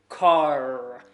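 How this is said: The R at the end is heavily overdone. The speaker calls it wrong. "if you go overboard with this, of course, it's going to sound a little bit weird"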